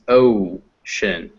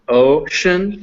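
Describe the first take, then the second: First: OCEAN with a drawn-out O closing into oo; gliding English O. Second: OCEAN with a pure O, no glide to oo; plain O, unglided. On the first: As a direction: stretch the first vowel of OCEAN, rounding toward W, slowly. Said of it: "because the sound is not ocean". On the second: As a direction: say OCEAN with a single flat-vowel O that stops short of W. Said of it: "the sound is not". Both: Shown as a demonstration.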